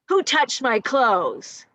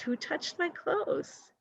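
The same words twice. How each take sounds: First: It is said in an angry, accusing tone. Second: It is said in a curious, wondering tone. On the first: The asker is accusing someone. "in a kind of angry, accusative way?" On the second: The asker simply wants to know. "Or is he just more curious?"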